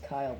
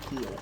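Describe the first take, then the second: First: The vowel sounds like 'eye'. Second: The vowel sounds like 'ee'. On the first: This is the intended pronunciation of the name. "It's supposed to be pronounced Kyle" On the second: This is how the family actually says the name. "but we say it Keel"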